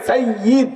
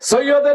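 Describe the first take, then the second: First: It is said as 'sai-yid' with a doubled y. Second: It is said as two syllables, 'soy-od'. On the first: The speaker calls it right. "আমি আমার নামের মধ্যে সাইয়্যিদ লেখাই" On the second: The speaker calls it wrong. "সৈয়দ কোনো শব্দই নাই, সৈয়দ এটা ভুল"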